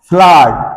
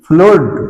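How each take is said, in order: First: The vowel is a short 'uh' sound. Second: The vowel is a long 'oo' sound. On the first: The speaker calls it right. "এর উচ্চারণ ফ্লাড" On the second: The speaker calls it wrong. "এর উচ্চারণ ফ্লুড নয়"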